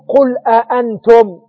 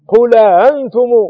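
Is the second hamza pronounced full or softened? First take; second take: full; softened. First: Both hamzas are pronounced fully and distinctly. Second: The second hamza is softened, not fully pronounced. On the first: "على قراءة تحقيق الهمزة" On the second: "على سهيل"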